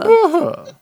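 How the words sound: It is said in a small, subtle way.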